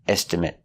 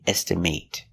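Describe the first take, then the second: First: The last syllable has a short vowel sound. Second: The last syllable has a long A sound. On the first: It is used as a noun. "with the short eh" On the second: It is used as a verb. "With the long A"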